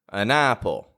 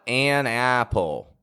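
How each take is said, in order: First: The vowel in 'an' is a weak schwa. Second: The vowel in 'an' is full and strong. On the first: The speaker calls it right. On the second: The speaker calls it wrong.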